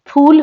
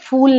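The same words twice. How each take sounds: First: The first sound is made with both lips. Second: The first sound is made with lip and teeth. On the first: It means a flower. The speaker calls it right. "फूल होता है" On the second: It sounds like the English word for a foolish person. The speaker calls it wrong. "फूल नहीं"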